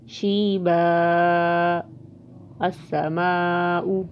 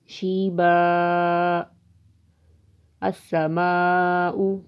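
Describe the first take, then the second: First: There is a pause after the first word. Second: There is a pause after the first word.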